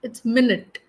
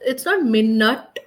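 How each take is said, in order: First: The first syllable is a short 'min'. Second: The first syllable is not a short 'min'. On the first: The speaker calls it right. "Min. ... Short" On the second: The speaker calls it wrong.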